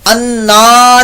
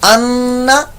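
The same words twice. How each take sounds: First: The vowel is drawn out long. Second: The vowel is kept short. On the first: The speaker calls it wrong. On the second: The speaker calls it right.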